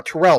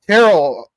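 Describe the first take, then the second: First: "Terrell" stressed on the second syllable, tuh-RELL; "Terrell" with the weight on RELL; corrected name. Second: "Terrell" misread with the stress up front, TAIR-ul; "Terrell" with a long stressed first syllable; mispronounced name. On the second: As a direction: say "Terrell" loudly as TAIR-ul, rhyming with Carol. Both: Real, not acted. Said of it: "uh, Terrell, excuse me".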